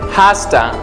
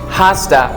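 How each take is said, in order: First: The words are reduced and run together. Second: The words are reduced and run together.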